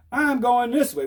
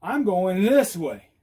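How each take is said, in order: First: Said in the usual way. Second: Slow, drawn-out announcement; deliberate, spelled-out signal; demonstrating with movement. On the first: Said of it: "now they got this stiff thing". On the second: Shown as a demonstration. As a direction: stretch out I'M GOING THIS WAY for onlookers. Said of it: "Oh, it's movement".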